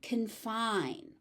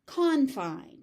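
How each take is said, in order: First: "confine" stressed on the second syllable, con-FINE; weak first vowel in "confine", stress on FINE; verb stress. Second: "confine" stressed on the first syllable, CON-fine; noun stress. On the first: Teacher showing the verb form, second-syllable stress. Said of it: "As a verb". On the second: Teacher showing the noun form, first-syllable stress. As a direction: hit CON in "confine", full first vowel. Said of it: "So as a noun". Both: Shown as a demonstration.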